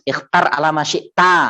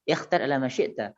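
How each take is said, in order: First: It is spoken with a Javanese accent. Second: It is spoken with an Arabic accent. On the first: The speaker calls it wrong. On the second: The speaker calls it right.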